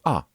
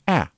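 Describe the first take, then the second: First: The vowel is a rounded 'awe' sound. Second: The vowel is an open 'ah' sound. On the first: The speaker calls it wrong. "instead of" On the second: The speaker calls it right. "figure out how to go"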